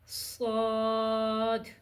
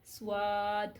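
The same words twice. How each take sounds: First: No w sound follows the s. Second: A w sound follows the s. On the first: The speaker calls it right. "पढ़ने में इस तरह से पढ़ा जाता है" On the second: The speaker calls it wrong. "कुछ लोग इसको बोलते हैं स्वाद, वाव की आवाज़।"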